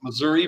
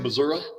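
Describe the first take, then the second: First: It is said in the usual standard way. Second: It is said in the local regional way. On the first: "it's Missouri" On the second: "but they'd say Missouri"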